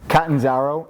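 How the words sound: The name is said with an American pronunciation. "in American"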